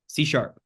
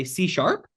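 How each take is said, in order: First: "sharp" dropped down at the end, certain; confident falling answer. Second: "sharp" lifted up high at the end, like a question; unsure rising answer. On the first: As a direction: state it flatly, like you know. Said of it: "If you inflect it downwards". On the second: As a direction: answer as if you're asking. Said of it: "it sounds like you don't know". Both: Shown as a demonstration.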